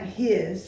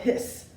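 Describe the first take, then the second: First: The word ends with a buzzing z sound. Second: The word ends with a hissing s sound. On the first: The speaker calls it wrong. "H I S is not his" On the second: The speaker calls it right. "like a cat hisses"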